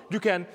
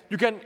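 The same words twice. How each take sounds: The two takes are said the same way.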